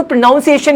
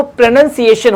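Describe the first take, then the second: First: प्रोनाउंसिएशन with "nounce" in the middle; wrong pronunciation. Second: प्रोनंसिएशन with a short "nun" in the middle; correct pronunciation. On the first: Teacher showing learners the common mistake, clearly said. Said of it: "वो प्रोनाउंसिएशन नहीं होता". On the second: Teacher showing learners the right form, clearly said. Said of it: "वो प्रोनंसिएशन होता है". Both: Shown as a demonstration.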